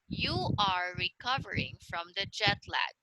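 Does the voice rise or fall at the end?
fall. The voice falls at the end.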